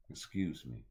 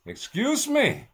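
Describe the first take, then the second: First: Low and quiet, polite; soft excuse me. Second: Much higher, much louder, slow and stretched; comic shout. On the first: He politely excuses himself, low and soft. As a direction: murmur it like a small apology. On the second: He repeats himself in a mock outraged shout. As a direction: blast it out like an outraged squeal. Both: Pretend. Polite aside, then shouted retake.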